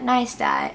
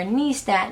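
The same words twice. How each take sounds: First: Neistat said as NY-stat; corrected name. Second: Neistat said as NEE-stat; mispronounced name. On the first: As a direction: fix it: Neistat with eye vowel. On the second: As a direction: say Neistat with an ee vowel, wrong. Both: Shown as a demonstration. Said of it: "I'm sorry".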